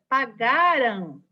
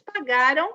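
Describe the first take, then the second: First: The final -am is articulated clearly and deliberately. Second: The final syllable is reduced, sounding like ão. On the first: "por isso que eu dou uma forçadinha na fala" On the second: "A gente fala, eles pagaram. ... Parece um ão"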